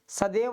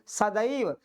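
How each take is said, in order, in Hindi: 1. बीच का स्वर एक सादा 'e' ध्वनि है। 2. बीच का स्वर पूरी 'ai' ध्वनि है। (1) "सदैव नहीं" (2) "डबल पाई जब लगेगा तो ऐसे बोलेंगे"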